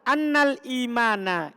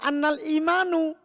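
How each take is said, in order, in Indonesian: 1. Kata terakhir diakhiri vokal 'a'. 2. Kata terakhir diakhiri vokal 'u'. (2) "Kan salah"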